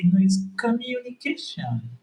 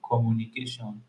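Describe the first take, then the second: First: High-pitched imitation of his partner correcting him; mock her correcting "communication" in a much higher voice; exaggerated, high-voiced parody of a pronunciation correction; mimicked correction. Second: "communication" in his usual Yoruba-accented English; own accented pronunciation. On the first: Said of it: "you are correcting me and say". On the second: Shown as a demonstration. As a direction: say "communication" with rounded o vowels, ko-mu-ni-KAY-shon. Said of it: "whenever I say commu".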